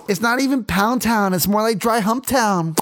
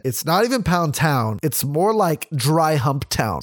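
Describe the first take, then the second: First: Higher-pitched mock argument through a full mouth; mimicked mouth full. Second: Said in the usual way. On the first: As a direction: put on a higher voice, mouth occupied. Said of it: "sucking his wiener while arguing with me". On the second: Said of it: "She said".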